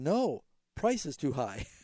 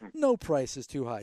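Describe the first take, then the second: First: There is a pause right after 'no'. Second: There is no pause after 'no'. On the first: The price is too high, so do not buy it. "there was no comma... he was saying" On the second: Any price is acceptable. "instead of saying"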